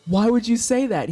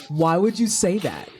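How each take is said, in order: First: Higher, louder whiny repeat; rising mock indignation. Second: Said in the usual way. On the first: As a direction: push the repeat up into a whine. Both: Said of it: "And I'm like".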